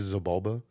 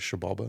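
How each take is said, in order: First: The name begins with a 'z' sound. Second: The name begins with a 'sh' sound. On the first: The speaker calls it wrong. "does it bother you when people say Zabalba?" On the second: The speaker calls it right. "the proper pronunciation is Shabalba"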